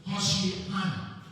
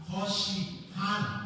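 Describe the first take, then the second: The two takes are said the same way.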